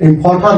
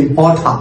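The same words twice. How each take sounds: First: "ইম্পর্টার" with the r heard at the end; final r sounded. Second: "ইম্পর্টার" ending in an open ah, no r; British silent r. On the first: Teacher shows the form to avoid, final r sounded. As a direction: close "ইম্পর্টার" on a clear r. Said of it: "ইম্পর্টার না বলে". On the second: Teacher shows the British way instead, silent final r. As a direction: drop the r closing "ইম্পর্টার". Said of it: "আমরা বলছি ইম্পর্টার". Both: Shown as a demonstration.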